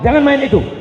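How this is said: It is said firmly and sternly.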